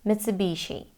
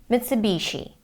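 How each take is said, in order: The two takes are said the same way.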